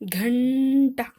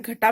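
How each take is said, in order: First: It is said with the nasal sound. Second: It is said without the nasal sound. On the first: The speaker calls it right. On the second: The speaker calls it wrong.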